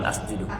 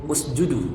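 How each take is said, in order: First: The word begins with an 'a' vowel. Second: The word begins with a 'u' vowel. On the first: The speaker calls it wrong. "bukan asjudu" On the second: The speaker calls it right. "Usjudu, bukan asjudu"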